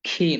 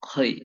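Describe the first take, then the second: First: The vowel sounds like a thin ee. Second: The vowel sounds like a heavy oy. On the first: The speaker calls it wrong. "খি নয়" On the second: The speaker calls it right. "নয় খই"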